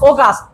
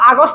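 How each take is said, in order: First: The first vowel sounds like 'o'. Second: The first vowel sounds like 'a'. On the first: The speaker calls it right. "কি বলি অগাস্ট" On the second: The speaker calls it wrong. "আগস্ট না কইয়া"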